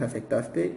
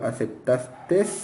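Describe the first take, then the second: First: The word ends in a plain vowel sound. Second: The word ends with an added s sound. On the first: The speaker calls it right. "La forma correcta es aceptaste" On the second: The speaker calls it wrong. "cuando se habla con la S al final"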